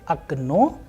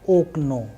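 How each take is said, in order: First: The first vowel sounds like a. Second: The first vowel sounds like o. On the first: The speaker calls it right. "it is akno, ... the sound of first vowel o is changing into a" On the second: The speaker calls it wrong. "the sound is not okno"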